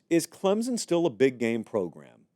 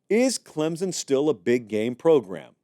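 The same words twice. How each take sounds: First: The question is asked in a calm, plain way. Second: The question is asked loudly with strong emphasis.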